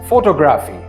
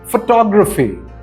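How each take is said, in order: First: The stress is not on the second syllable. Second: The stress is on the second syllable. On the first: The speaker calls it wrong. "Most people will pronounce this word as" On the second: The speaker calls it right. "the second syllable is stressed"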